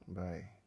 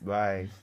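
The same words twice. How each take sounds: First: It is said flatly, with little energy. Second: It is said with lively energy.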